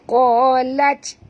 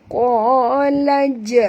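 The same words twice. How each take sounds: First: The final j stops without an echoing bounce. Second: The final j is released with an echoing bounce. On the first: The speaker calls it wrong. "Jangan baca qalaj" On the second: The speaker calls it right. "tapi qalaj"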